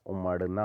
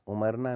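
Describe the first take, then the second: First: उमड़ना with a curled-tongue flap; correct ड़. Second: उमरना with a plain tapped r; wrong r. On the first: Teacher correcting it, उमड़ना with retroflex flap. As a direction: hit ड़ in उमड़ना. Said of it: "होता है". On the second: Teacher showing the error, उमरना with plain r. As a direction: say उमरना with r, not flapped ड़. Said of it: "नहीं होता". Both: Shown as a demonstration.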